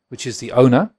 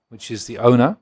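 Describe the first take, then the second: No difference in how they are said.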